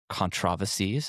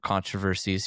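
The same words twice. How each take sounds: First: It is said the British way. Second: It is said the American way.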